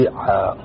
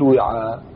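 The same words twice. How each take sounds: First: إعاء opening on a glottal stop and i; initial hamza. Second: وعاء opening on a w sound; waw kept. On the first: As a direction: say إعاء as i-'aa, with no w. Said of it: "يجوز أن تقول فيها". (إعاء بهمزة مكسورة) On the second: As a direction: say وعاء as wi-'aa, before any change. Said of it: "يجوز كذلك أن تهمز". (وعاء بالواو المكسورة) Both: Shown as a demonstration.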